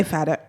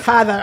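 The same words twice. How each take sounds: First: "Father" with a soft d sound, like "Fadda"; "Father" said without the th, as Americans say it. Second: "Father" with a clear th in the middle, said crisply and a little louder. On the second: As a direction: correct "Father" with a proper th sound, with a small laugh. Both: Shown as a demonstration. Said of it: "I said".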